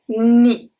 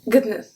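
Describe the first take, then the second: First: It sounds like n followed by a y-glide. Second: A hard g is heard before the n. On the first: "it's like a N and an E after" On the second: "we pronounce the G and then the N"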